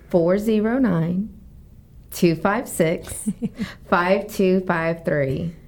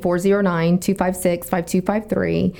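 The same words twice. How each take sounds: First: The number is said more slowly. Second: The number is said fast.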